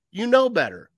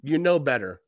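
First: Higher and louder, heated scold; fired-up scold. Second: Barely a reprimand, shrugged off; mild scolding. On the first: Coach chewing out a player after a penalty, heated scold. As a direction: get in his face. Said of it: "grab his face mask and like". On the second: Coach to player after a penalty, mild scold. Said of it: "Not just go". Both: Retold or imitated.

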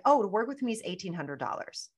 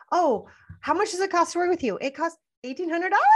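First: Said in the usual way. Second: High, unsure upturn at the end of every sentence; rising mom voice. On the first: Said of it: "where we say it just like". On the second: Shown as a demonstration. Coach mocking a timid seller, high questioning pitch. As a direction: make the price sound like a nervous question. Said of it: "turn into a mom and end the sentence like this".

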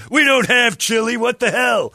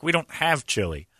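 First: Higher, louder, slow exasperated repeat; exasperated retort. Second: Said in the usual way. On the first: Retold or imitated. Waiter retells snapping at customer, loud and exasperated. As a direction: throw up your hands, loud and slow.

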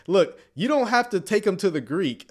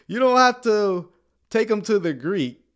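First: Said in the usual way. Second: "have" hit higher and louder, then easing down on "take 'em to the Greek"; emphatic repeat. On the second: Shown as a demonstration. Host restates to viewers with punch on "have". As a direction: drive the point home on "have". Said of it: "look, you don't have to take 'em to the Greek".

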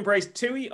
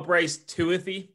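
First: "Toohey" as two syllables, TOO-ee. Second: "Tuathy" with an added th, TOO-a-thee. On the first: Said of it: "is you saying Bryce Toohey or". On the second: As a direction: say "Tuathy" in three syllables, ending -thee. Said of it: "Bryce Toohey or Bryce Tuathy". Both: Shown as a demonstration.

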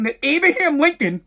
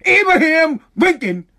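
First: Said in the usual way. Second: "Abraham Lincoln" hit louder and higher; indignant emphasis on "Abraham Lincoln"; emphatic repeat. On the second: Real, not acted. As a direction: punch "Abraham Lincoln" in disbelief.

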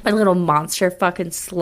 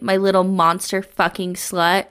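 First: Hammed-up echo of the line; mock monster lover. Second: Said in the usual way. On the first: Friend repeating the line, mock seductive. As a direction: savour the line in a put-on voice. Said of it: "repeating the line mockingly".

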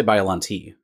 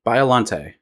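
First: Biollante ending in a "tee" sound; co-host's pronunciation. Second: Biollante ending in a "tay" sound; French-style ending. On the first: Retold or imitated. Host mimicking co-host's odd way, "tee" ending. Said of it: "You say Biollante". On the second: Shown as a demonstration. Host correcting co-host's pronunciation, French-style ending. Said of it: "You say it weird".

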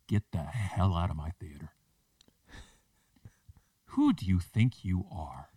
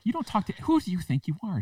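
First: Manager confronting customer. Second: High-pitched indignant retort; manager telling customer off. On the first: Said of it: "she looks at this lady and she goes". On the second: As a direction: imitate an outraged manager, pitched way up. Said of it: "And she's like". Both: Retold or imitated.

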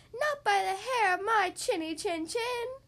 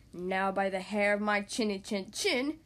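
First: High, drawn-out piggy voice; little pig. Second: Low, slow wolf voice; growing roar from a furious storybook wolf. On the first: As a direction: refuse as a squeaky little storybook pig. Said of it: "said the little pig". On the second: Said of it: "he roared". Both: A narrator's reading.

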